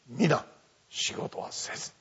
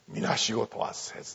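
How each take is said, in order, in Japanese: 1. フレーズは'mina'の後で切れます。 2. フレーズは'minashigo'の後で切れます。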